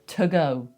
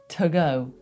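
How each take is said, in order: First: The word 'to' has a reduced schwa vowel. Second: The word 'to' has a reduced schwa vowel.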